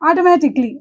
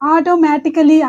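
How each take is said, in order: First: The 'a' before '-lly' is silent. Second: The 'a' before '-lly' is pronounced. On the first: The speaker calls it right. "ఏ అనేది లేదన్నట్టుగా మనం పలకాలి" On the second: The speaker calls it wrong. "ఆటోమేటికలీ అనకూడదు"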